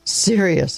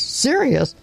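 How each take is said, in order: First: Serious settled down, falling and firm; flat affirming. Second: Sharply higher, disbelieving; incredulous echo. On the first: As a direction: confirm the word grimly. Doctor echoes, then affirms. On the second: Doctor scoffing at grandfather's word, high and disbelieving. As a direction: throw the word back in disbelief. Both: A narrator's reading.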